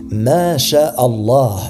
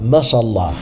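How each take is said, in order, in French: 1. La phrase se prononce comme des mots séparés. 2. La phrase se prononce comme un seul mot. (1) "et non pas Mashallah" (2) "Le dire de cette façon signifie Dieu a marché, et c'est une très grave erreur"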